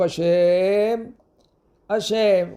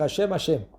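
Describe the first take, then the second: First: There is a clear pause between the words. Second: The two words run together without a pause. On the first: The speaker calls it right. "Regardez comment j'arrête" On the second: The speaker calls it wrong. "on n'a pas le droit de dire"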